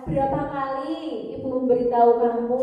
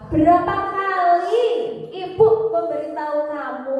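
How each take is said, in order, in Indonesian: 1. Pertanyaan itu diucapkan dengan lambat dan pelan. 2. Pertanyaan itu diucapkan dengan keras dan tegas.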